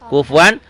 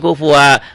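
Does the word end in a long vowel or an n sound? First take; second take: n sound; long vowel. First: The word ends with an n sound. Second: The word ends with a long a vowel. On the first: The reading continues into the next word. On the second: The reading stops at this word.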